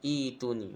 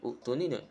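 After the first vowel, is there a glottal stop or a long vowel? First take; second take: long vowel; glottal stop. First: The first vowel is lengthened with no stop. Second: A glottal stop follows the first vowel. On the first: The speaker calls it right. "kena baca itu ni" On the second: The speaker calls it wrong.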